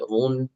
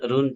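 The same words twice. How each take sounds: First: The r is pronounced heavy and full. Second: The r is pronounced light and thin. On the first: The speaker calls it right. "ajrun itu tebal" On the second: The speaker calls it wrong. "jangan run run"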